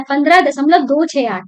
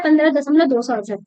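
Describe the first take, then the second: First: "दो छह आठ" read as separate digits after "दशमलव". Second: Quick "दो सौ अड़सठ" read as one number after "दशमलव"; wrong whole-number reading. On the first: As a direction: read "पन्द्रह दशमलव दो छह आठ" one digit at a time. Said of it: "तो आपको ऐसे ही पढ़ना है". (दशमलव के बाद "दो छह आठ" अलग-अलग अंक पढ़ें) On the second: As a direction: rattle off "पन्द्रह दशमलव दो सौ अड़सठ" fast, as the wrong way. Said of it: "ये नहीं पढ़ना है". (गलत तरीका: "दो सौ अड़सठ" एक संख्या की तरह, तेज़ी से) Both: Shown as a demonstration.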